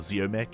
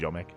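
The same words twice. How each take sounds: First: The name is said with an English pronunciation. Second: The name is said with a Polish pronunciation. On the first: "That's how you say Ziomek or Ziomek in, I guess, English" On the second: "but in Polish it's Ziomek"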